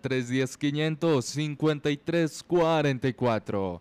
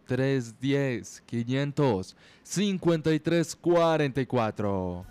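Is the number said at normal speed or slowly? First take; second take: normal speed; slowly. First: The number is said at normal speed. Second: The number is said a bit slower.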